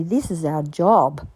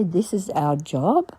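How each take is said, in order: First: Said in the usual way. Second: This is our job? repeated slowly, rising in disbelief; puzzled question. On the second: Retold or imitated. Baffled by men refusing petrol money, rising question. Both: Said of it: "That's a strange thing to say".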